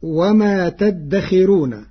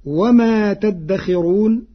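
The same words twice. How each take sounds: First: تدخرون with a thin light R, slow; Warsh reading. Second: تدخرون with a full heavy R, slow and lifted; standard reading. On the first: Teacher demonstrating Warsh's thin R in تدخرون, slow. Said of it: "فتكون هكذا". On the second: Teacher quoting the verse before Warsh's thin R. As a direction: recite وما تدخرون slowly, R thick. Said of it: "بترقيق الراء". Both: Shown as a demonstration.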